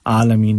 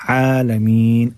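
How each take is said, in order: First: Quick आलमीन opening on a plain long a; wrong, no ayn. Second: Slow आलमीन starting from mid-throat ayn; correct ayn. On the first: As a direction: skip the throat sound in आलमीन. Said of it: "आलमीन नहीं". (आलमीन बिना ऐन के) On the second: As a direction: draw out आलमीन with a throaty first sound. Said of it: "आइन को निकालिएगा". (आलमीन में हलक से ऐन) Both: Shown as a demonstration.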